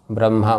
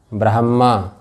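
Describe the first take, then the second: First: ब्रह्मा mispronounced as 'bram-ha', the m first; म before ह. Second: ब्रह्मा said as 'brah-ma', the h first; ह before म. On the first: Teacher showing some people's mistake, ब्रह्मा as 'bram-ha'. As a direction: put the m ahead of the h in ब्रह्मा. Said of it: "म को पहले बोल देते हैं". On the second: Teacher asking students which letter comes first, ब्रह्मा as 'brah-mma'. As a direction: sound the h in ब्रह्मा before a held m. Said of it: "ह पहले कि म पहले है?". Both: Shown as a demonstration.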